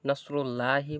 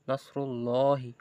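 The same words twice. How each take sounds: First: The L sound is light and thin. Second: The L sound is heavy and full. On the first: The speaker calls it wrong. "বললে ভুল হবে" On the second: The speaker calls it right. "ফুর হবে লামটা"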